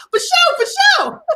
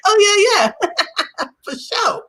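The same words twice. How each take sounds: First: Much higher, slow put-on cool voice; awkward try at sounding hip. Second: Trying to sound cool. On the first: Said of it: "I'm trying to get the moment back". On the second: Retold or imitated. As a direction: fake easy confidence, broken by a laugh. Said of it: "And I was like".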